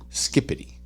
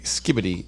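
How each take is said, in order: First: The middle consonant is a voiceless P sound. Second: The middle consonant is a voiced B sound. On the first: The speaker calls it right. "is pronounced skippity" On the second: The speaker calls it wrong. "it's spelled S K I B I D I"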